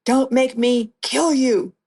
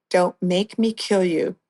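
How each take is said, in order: First: Higher and slow, imitating his threat; mock angry yell. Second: Said in the usual way. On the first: Kidnapper at gunpoint threatening the captive, imitated slow raised-pitch yell. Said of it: "He's yelling at me". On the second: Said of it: "I'm like".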